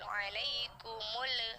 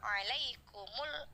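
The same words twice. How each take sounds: First: The final L has an extra bouncing echo sound. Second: The final L is said clearly without any bounce. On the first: The speaker calls it wrong. "tidak seperti itu ya. Kalau ada suara seperti itu namanya tawalud" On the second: The speaker calls it right. "Jadi bacanya jelas, tidak dengung, tidak mantul"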